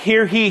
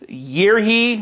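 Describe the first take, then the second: First: The first word begins with an h sound. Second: The first word begins with a y sound. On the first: "I said it wrong" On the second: "I guess it's year he"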